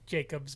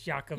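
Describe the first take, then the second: First: The name begins with a J sound. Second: The name begins with a Y sound. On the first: The speaker calls it wrong. "it looks like Jacobs" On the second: The speaker calls it right. "the J is pronounced like a Y"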